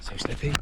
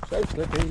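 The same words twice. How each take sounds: First: Said in the usual way. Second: "So slippy" with "So" punched up; stress on So. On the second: Real, not acted.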